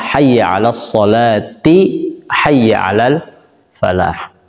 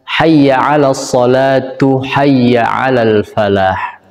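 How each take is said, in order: First: The linking word ends with an i vowel. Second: The linking word ends with a u vowel. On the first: The speaker calls it right. "yang tepat secara nahwunya adalah" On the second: The speaker calls it wrong. "Sering kita dengar eh, para muadzin mengucapkan"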